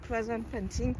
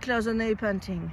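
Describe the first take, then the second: First: The first word ends without a final 'ay' vowel. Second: The first word ends with a final 'ay' vowel. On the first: Some other people say it this way. "il y en a qui disent cloison" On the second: The accent of the French name is kept. "je garde le A"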